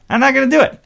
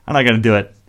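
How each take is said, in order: First: Much higher, louder insistence; emphatic refusal. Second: Said in the usual way. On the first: Real, not acted. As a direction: pitch jumps up on DO, louder. Repeats himself, second time emphatic.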